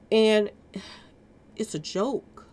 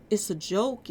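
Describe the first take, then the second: First: Weary sigh. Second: Said in the usual way. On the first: Real, not acted. Disgusted commentary on police.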